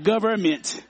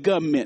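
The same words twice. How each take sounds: First: The word is said with three syllables. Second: The word is said with two syllables. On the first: The speaker calls it wrong. "not government" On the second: The speaker calls it right. "I said two syllables"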